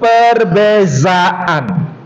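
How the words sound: The middle consonant is a 'z' sound. This is how Malaysians say it. "orang Malaysia menyebut perbezaan"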